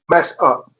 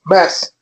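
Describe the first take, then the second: First: An extra vowel follows the final consonant. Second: It ends cleanly on the final consonant.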